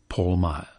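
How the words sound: The name is said in an English accent. "In England"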